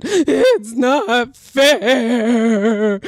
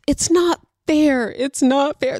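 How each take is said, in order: First: Hugely drawn-out mock wail; hammed-up drooling cry of a six-year-old; imitated crying child. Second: Higher mock whine of a six-year-old; half-hearted try at a child's complaint; imitated child protest. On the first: Shown as a demonstration. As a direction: wail it very slowly like a child mid-tantrum. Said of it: "Let me see if I can do it". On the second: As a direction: pitch it up like a protesting kid. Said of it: "That's not how she sounds".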